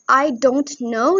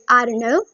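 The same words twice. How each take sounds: First: Each word is said fully and separately. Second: The words are run together in reduced form. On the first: "instead of saying" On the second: "you can say"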